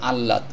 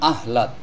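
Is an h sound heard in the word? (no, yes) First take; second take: no; yes. First: The h is silent and the l is doubled. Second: The h sound is clearly pronounced. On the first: The speaker calls it right. "শব্দটির সঠিক উচ্চারণ হবে আহ্লাদ।" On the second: The speaker calls it wrong. "অনেকে বলেন আহ্লাদ। আহ্লাদ বলা যাবে না।"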